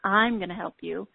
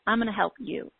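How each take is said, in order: First: The stress is on I'm. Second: The stress is on you.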